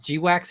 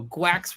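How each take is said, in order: First: The name is said as two syllables. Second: The name is said as one syllable. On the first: "is G WAX any better?" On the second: "Gwax rhymes with ducks"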